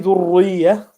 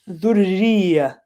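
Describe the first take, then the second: First: The r sound is pronounced heavy. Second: The r sound is pronounced light. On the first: The speaker calls it wrong. "I wouldn't say ذرية" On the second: The speaker calls it right. "because it has a kasra"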